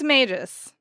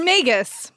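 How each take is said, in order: First: The g is soft, like a j. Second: The g is hard, like in go.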